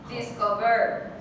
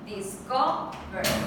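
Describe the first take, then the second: First: The stress is on the third syllable. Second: The stress is on the second syllable. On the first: The speaker calls it wrong. "If it was on the third one" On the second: The speaker calls it right. "So it's on the second one"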